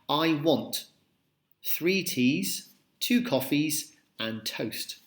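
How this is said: There is a slight pause after want.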